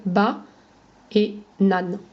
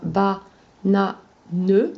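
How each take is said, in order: First: "ba et nan" as two separate beats, silent final e; syllabes orales. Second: "ba-na-ne" in three slow, separate syllables, final "ne" sounded; découpage en syllabes écrites. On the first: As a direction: pause between "ba" and "nan", ending on the n. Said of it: "comme on ne prononce pas le ne". (« ba et nan » en deux syllabes, e final muet) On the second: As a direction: split "ba-na-ne" with pauses, voicing the last "ne". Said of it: "ça va former des syllabes". (« ba-na-ne » détaché, le « ne » final prononcé) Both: Shown as a demonstration.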